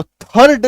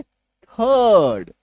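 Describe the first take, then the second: First: थर्ड with the R sounded, "thard"; wrong full R. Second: थर्ड very long as "thuuhd", no R; silent R. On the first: Teacher warning against the mistake, थर्ड with full R. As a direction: put a hard R into थर्ड. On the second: Teacher correcting the mistake, थर्ड drawn out with silent R. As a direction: stretch थर्ड slowly, dropping the R. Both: Shown as a demonstration. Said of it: "तो थर्ड नहीं बोलेंगे".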